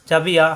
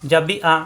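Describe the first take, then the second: No difference in how they are said.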